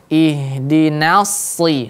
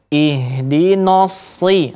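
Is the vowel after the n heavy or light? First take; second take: light; heavy. First: The nun syllable is thin with a clear a vowel. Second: The nun syllable is thickened with a dark vowel. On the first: The speaker calls it right. "jelas fathahnya. Ihdinas. Nah, kemudian baru pindah makhraj... Ditebalkan huruf shadnya" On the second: The speaker calls it wrong. "itu juga sering terjadi. Ihdino, no. Tidak. Nun, dia bukan huruf isti'la"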